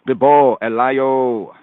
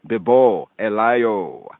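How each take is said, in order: The two takes are said the same way.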